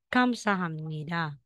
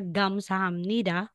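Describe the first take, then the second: First: The word begins with a voiceless K sound. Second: The word begins with a voiced G sound. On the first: The speaker calls it right. "Kapag po si Kiyok ay napunta or nasulat sa initial, ka ang bigkas natin" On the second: The speaker calls it wrong. "hindi po siya gamsahamnida"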